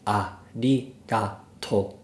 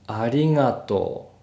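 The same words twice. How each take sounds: First: The word is stretched out to an extreme degree. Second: The word is only slightly slowed and stretched. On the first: The speaker calls it wrong. "I don't mean something that's completely different from natural speech. So not arigatou" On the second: The speaker calls it right. "you probably want them to say something like arigatou"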